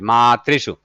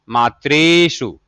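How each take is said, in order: First: The ri vowel is kept short. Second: The ri vowel is held long. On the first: The speaker calls it right. "यहाँ पर केवल एक री की मात्रा है" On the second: The speaker calls it wrong. "नहीं तो अगर ऐसे हो जाता तब ये हो जाता मातृषु"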